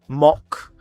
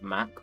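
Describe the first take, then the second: First: The vowel is open and back, like 'mock'. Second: The vowel is front, like 'mack'. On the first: This is how Americans say it. The speaker calls it wrong. "the Americans, you pronounce it like mock" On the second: It follows the spelling. The speaker calls it right. "so you pronounce it Mac"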